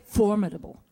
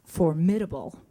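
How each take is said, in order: First: "formidable" stressed on FOR; stress on first syllable. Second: "formidable" stressed on MID; stress on second syllable. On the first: Dialogue coach correcting Lucy, "formidable" stressed on FOR. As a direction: say "formidable" as FOR-midable. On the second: Dialogue coach showing the wrong way, "formidable" stressed on MID. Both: Shown as a demonstration. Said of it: "Lucy, it's not".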